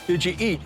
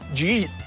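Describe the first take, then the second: First: The words are said separately and clearly. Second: The words are run together into one. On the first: This is the way locals do not say it. "We never say" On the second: This is the local way of saying it. "We said"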